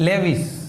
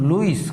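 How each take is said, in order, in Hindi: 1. नाम 'le' ध्वनि से शुरू होता है। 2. नाम सामान्य 'loo' ध्वनि से शुरू होता है। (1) "અમેરિકાવાળા ઉચ્ચાર કેવી રીતે કરે? આ જે શબ્દ દેખાય એ જ લેવિસ" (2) "આપણે આ બધું તડકે મૂક્યું લુઈસ કરી નાખ્યું"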